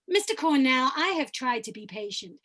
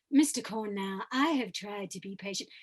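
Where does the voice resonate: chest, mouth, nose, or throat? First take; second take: mouth; throat. First: The voice is higher and resonates in the mouth. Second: The voice mixes chest and throat resonance. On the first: This is another different character. "I can come up to my oral resonant place" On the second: This is a different character. "a little bit of chest voice and a little bit of Farringham voice"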